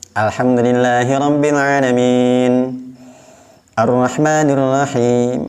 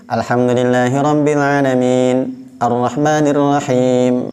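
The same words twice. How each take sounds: First: It stops with an audible breath between phrases. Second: It stops briefly between phrases without taking breath. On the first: The recitation stops fully at the verse end. "ada tarikan nafasnya" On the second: The recitation pauses momentarily without a full stop. "tidak ambil dulu nafas. Itu namanya saktah"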